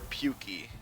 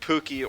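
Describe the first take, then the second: First: The first syllable sounds like 'puke'. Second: The first syllable sounds like 'pook'. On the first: The speaker calls it wrong. "it sounds like throwing up" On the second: The speaker calls it right. "Pookie sounds much better"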